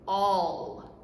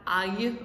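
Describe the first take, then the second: First: The double L is said as an l sound. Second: The double L is said as a y sound. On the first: The speaker calls it right. "it's all" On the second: The speaker calls it wrong. "the L L sound doesn't say y like it does in Spanish. This is not ay"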